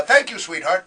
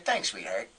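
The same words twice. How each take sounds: First: Loud, unsmooth endearment; clumsy attempt at a tough guy's endearment; can't pull it off. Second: Low, soft, cool tough-guy thanks; smooth guy who gets away with endearments; Dennis Farina. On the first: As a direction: say it loudly, without any of the cool. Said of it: "it's just not in my nature". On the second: Retold or imitated. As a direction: drop the pitch and toss it off coolly. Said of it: "only one in the world who can say".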